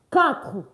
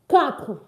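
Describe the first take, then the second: No difference in how they are said.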